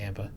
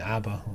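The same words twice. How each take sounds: First: Abba with a short front "a", as in cat; usual pronunciation. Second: Abba said as AH-buh; Canadian-style pronunciation. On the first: Shown as a demonstration. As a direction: say abba as AB-buh. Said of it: "instead of abba". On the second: Retold or imitated. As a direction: say abba with an open "ah" first vowel, like a Canadian. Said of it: "you said it like a Canadian".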